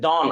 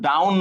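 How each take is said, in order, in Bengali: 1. স্বরধ্বনিটি law এর 'aw' এর মতো শোনায়। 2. স্বরধ্বনিটি cow এর 'ow' এর মতো শোনায়। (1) "এটা হচ্ছে ডন" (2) "এটা কিন্তু ডাউন না"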